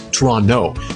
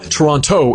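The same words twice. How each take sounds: First: The second T is dropped entirely. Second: The second T is clearly pronounced. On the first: The speaker calls it right. "That second T, it is silent" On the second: The speaker calls it wrong. "It's not Toronto"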